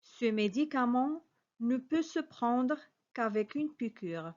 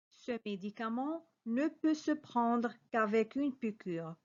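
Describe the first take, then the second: No difference in how they are said.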